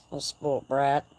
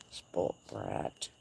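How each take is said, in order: First: Said in the usual way. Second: Very low, soft, gravelly mock voice on "Spoilt brat"; mock deep growl. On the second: Teasing her spoiled horse in a mock deep growl.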